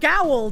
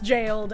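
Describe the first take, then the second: First: The word begins with a hard G sound. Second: The word begins with a J sound. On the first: "It should be pronounced gowled, in my professional opinion" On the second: "But apparently it's pronounced jailed"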